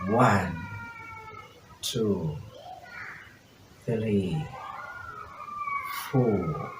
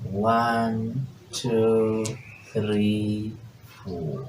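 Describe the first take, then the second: First: The numbers are counted very slowly. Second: The numbers are counted somewhat faster. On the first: "we may be very slow" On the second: "It is more faster than lago"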